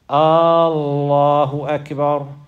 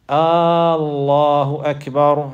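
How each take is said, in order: First: The first vowel of Allah is drawn out long. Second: The first vowel of Allah is drawn out long.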